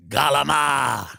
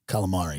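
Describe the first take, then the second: First: "galama" said with a clipped New Jersey ending. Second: "Calamari" said in full, low and soft. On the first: Imitating Jersey speech for the crowd, "galama" said the local way. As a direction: say "galama" the Jersey way, swallowing the end of calamari. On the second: Correcting to the standard word, "Calamari" said plainly. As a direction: say "Calamari" properly, all four syllables. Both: Shown as a demonstration. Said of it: "you say galama when you're from".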